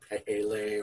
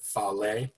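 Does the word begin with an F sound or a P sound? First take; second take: P sound; F sound. First: The word begins with a P sound. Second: The word begins with an F sound. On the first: This is the modern way to say it. "I believe the modern pronunciation is something like Pehele" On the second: This is how most people say it. "most people pronounce it Fale"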